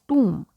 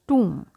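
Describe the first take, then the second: The two takes are said the same way.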